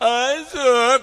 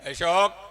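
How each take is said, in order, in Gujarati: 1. નામ મીઠાશ અને પ્રેમથી બોલાય છે. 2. નામ જરા પણ લાગણી વગર બોલાય છે. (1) "એટલું પ્રેમથી બોલે" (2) "લગ્ન વીસ વર્ષ એટલે"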